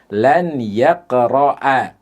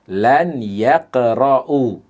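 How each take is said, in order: First: The verb ends with an 'a' vowel. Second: The verb ends with a 'u' vowel. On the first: The speaker calls it right. "Harokat akhir dari fi'il yaqra'u berubah menjadi fathah" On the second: The speaker calls it wrong. "Tidak boleh"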